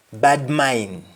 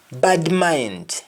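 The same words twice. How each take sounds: First: MIND as "mine" in "bad mind"; Jamaican pronunciation. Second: MIND with final D in "bad mind"; English-style BAD MIND, full "nd"; English pronunciation. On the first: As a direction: drop the last D of BAD MIND. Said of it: "You only stop at N". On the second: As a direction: finish MIND on a clear D. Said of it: "ends with N D in English". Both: Shown as a demonstration.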